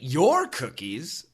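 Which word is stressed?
your. The word your carries the main stress. The speaker ate someone else's cookies. "yes, I did eat cookies, but not your cookies. I ate someone else's cookies"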